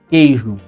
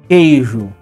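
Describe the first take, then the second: Both takes have the same delivery.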